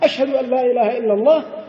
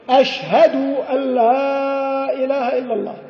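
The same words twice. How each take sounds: First: No extra 'w' sound follows 'ashhad'. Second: An extra 'w' sound follows 'ashhad'. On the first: The speaker calls it right. "بدون هذه الواو" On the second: The speaker calls it wrong. "قول بعضهم أشهد بزيادة واو بعد الدال"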